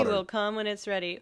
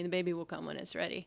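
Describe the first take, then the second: First: It is said a little louder. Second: It is said at normal volume.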